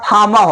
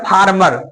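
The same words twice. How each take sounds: First: The R sounds are silent. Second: The R sounds are pronounced. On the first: The speaker calls it right. "फार्मर होता है" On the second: The speaker calls it wrong. "आप लोग बोलते हैं ना फार्मर ... गलत है"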